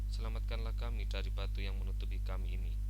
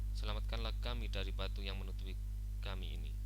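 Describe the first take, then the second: No difference in how they are said.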